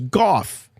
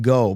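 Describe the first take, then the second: First: The name ends with an f sound. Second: The name ends in a plain vowel sound. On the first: The speaker calls it right. "but I found out it was Goff pronounced" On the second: The speaker calls it wrong. "I always pronounced it Go"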